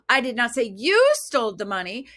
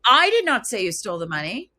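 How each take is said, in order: First: The word "you" carries the main stress. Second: The word "I" carries the main stress. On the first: Someone else stole it, not the listener. "It's like you, somebody else did, not you" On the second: Someone else said it. "Well, who did? Somebody else did"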